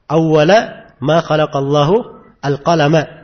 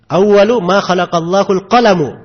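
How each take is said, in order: First: The first and last words end in 'a'. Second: The first and last words end in 'u'. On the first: When the pen was created, it was commanded; the throne came earlier. "saya dari tadi membacanya apa?" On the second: The very first thing created was the pen. "maka hadits dibaca apa? ... Begitu bacanya"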